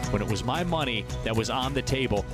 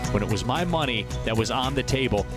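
Both takes have the same delivery.

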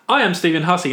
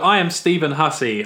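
First: It is said in an outgoing, lively way. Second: It is said in a shy, timid way. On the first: "I'm doing extrovert now" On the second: "I'm starting this episode shy"

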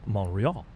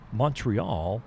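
First: The t sound is dropped. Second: The t sound is pronounced.

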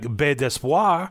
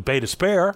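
First: The name is read following its French spelling. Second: The name is said in a local anglicized way. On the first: "if you're reading it as it is written" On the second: "as opposed to"

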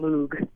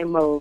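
First: The name does not rhyme with vogue. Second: The name rhymes with the word vogue. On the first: This is the British pronunciation. "But if you're British... there's no way we can stop you from saying Moog" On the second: This is the American pronunciation. "It rhymes with Vogue"

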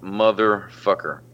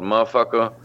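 First: The word is pronounced fully and carefully. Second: The word is pronounced in a reduced, slurred way. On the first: "I've never been called motherfucker" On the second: "lazy way to say it"

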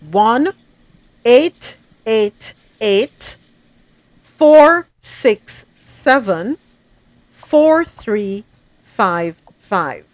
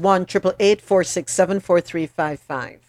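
First: The number is said slowly, in groups. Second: The number is said at normal speed.

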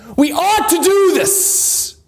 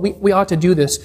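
First: It is said firmly, with strong emphasis. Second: It is said lightly, with a shrugging tone. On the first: It is a real obligation. The speaker calls it right. "the tone that the elder would have said is" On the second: It is a mild suggestion that can be ignored. The speaker calls it wrong. "It's not so much as when you read it, we say, oh, well"

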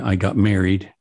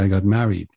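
First: It is said in a General American accent. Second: It is said in a New York accent. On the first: "instead of, you know, Mary, as in I got married" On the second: "a New Yorker is much more likely to say I got married"

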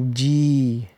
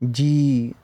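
First: The vowel is long with a slight final turn. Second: The same.

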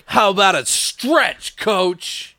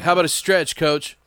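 First: It is said with punch, like a one-liner. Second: It is said flat, like a normal remark.

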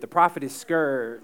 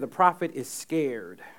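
First: Scared is said with an 'ur' vowel, like scurred. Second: Scared is said with a plain 'air' vowel. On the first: The speaker calls it right. "Put a U on it" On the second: The speaker calls it wrong. "don't say scared"

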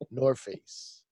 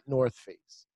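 First: The th sound at the end of North is dropped. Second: The th sound at the end of North is pronounced. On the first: This is how it is said in New York. "We say North Face in New York" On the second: This is how it is said outside New York. "not North Face"

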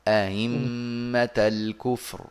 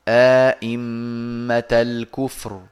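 First: The second hamza is softened, with no added vowel. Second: A long vowel separates two fully pronounced hamzas. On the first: "يسهلون الثانية من غير إدخال، هكذا" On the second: "فله فيها الإدخال وعدمه مع تحقيق الهمز"

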